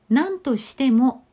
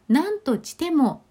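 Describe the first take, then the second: First: The s sound is pronounced clearly. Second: The s sound is pronounced unclearly. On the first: "何としてもというところを" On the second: "作業がやはり非常に苦手でいらっしゃって"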